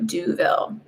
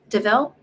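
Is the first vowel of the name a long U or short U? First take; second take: long U; short U. First: The first vowel is a long U sound. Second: The first vowel is a short sound. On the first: "a long U" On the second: "am I saying that right?"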